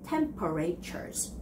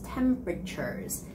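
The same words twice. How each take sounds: First: Later syllables are pronounced fully and separately. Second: Strong first syllable, later syllables mushed together. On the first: The speaker calls it wrong. "not temperatures. That's wrong" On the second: The speaker calls it right. "the other sounds following after that is sort of like all mushed up together"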